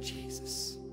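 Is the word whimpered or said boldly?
whimpered. It is said as a weak whimper.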